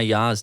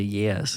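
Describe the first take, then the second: First: The word is said with an open 'ah' vowel. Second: The word is said with an 'eh' vowel. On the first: This is how the speaker used to say it. "my yas" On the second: This is how the speaker says it now. "to yes"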